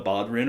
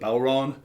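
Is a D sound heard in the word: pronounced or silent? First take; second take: pronounced; silent. First: A clear D sound is pronounced in the middle. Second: No D sound is pronounced in the middle. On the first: The speaker calls it wrong. "It's not a bodrin or a bodran" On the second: The speaker calls it right. "just don't pronounce the D"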